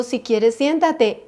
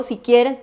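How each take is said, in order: First: Drawn-out, slow "Si quieres siéntate"; slow mock quote. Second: "quieres" leaned on in the quote; "Si quieres" with the weight on "quieres"; stress on quieres. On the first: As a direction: mimic the offhand offer, slowly. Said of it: "Me dijo". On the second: Retold or imitated. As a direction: press the word "quieres". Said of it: "Pero si me dijo".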